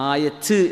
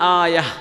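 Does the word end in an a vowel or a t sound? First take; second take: t sound; a vowel. First: The word ends with a t sound. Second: The word ends with an open a vowel. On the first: The speaker calls it wrong. "ആയത്ത് എന്ന് പറയേണ്ട ആവശ്യമില്ല" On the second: The speaker calls it right. "അൽ ആയ"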